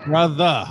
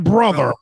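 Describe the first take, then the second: First: The word ends with a soft 'uh' sound. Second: The word ends with a hard 'er' sound. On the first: The speaker calls it right. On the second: The speaker calls it wrong.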